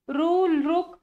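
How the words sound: The vowels are pronounced like ru. This is the usual Marathi regional pronunciation. "आपण मराठीत म्हणतो"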